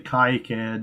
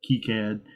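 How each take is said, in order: First: The name is said with an English pronunciation. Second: The name is said with a French pronunciation. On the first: "we say" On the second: "refuse to use the French pronunciation"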